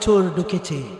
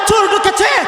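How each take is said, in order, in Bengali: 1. আস্তে, কম আওয়াজে বলা হয়েছে। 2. চিৎকার করে, পূর্ণ আওয়াজে বলা হয়েছে। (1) "এভাবে বলবেন?" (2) "গলা ফাটিয়ে চিৎকার করবেন"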